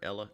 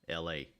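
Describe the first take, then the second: First: It is said as one word, like Ella. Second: It is said as two separate letters. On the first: The speaker calls it wrong. "if it was Ella, it'd be two L's" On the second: The speaker calls it right. "so we'll say L A"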